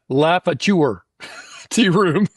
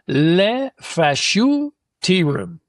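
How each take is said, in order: First: The name is said with a Southern American pronunciation. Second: The name is attempted with a French pronunciation. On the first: "if you're from Atlanta" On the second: "I'm not French, so I'm gonna say this wrong"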